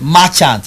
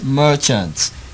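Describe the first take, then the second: First: The first vowel sounds like 'ah'. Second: The first vowel sounds like 'er'. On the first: The speaker calls it wrong. "it's not a" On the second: The speaker calls it right.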